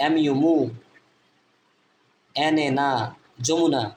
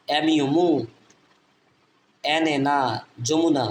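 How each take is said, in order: Both takes have the same delivery.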